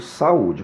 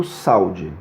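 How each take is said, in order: First: "saúde" slow, split "sa-ú-de", stress on ú; right way. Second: "saúde" run together as "sau-de", two syllables, au as one glide; wrong way. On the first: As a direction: break "saúde" into three syllables, lean on the ú. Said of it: "eu digo saúde". ("saúde" devagar, separando "sa-ú-de", tônica no ú) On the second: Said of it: "Eu não digo saúde". ("saúde" com ditongo "sau", pronúncia errada) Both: Shown as a demonstration.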